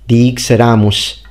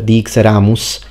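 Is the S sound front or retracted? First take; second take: retracted; front. First: The S is made with the tongue pulled back. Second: The S is made with the tongue forward. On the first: "So dixeramus instead of" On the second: "instead of dixeramus"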